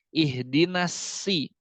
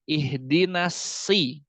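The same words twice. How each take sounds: Both takes have the same delivery.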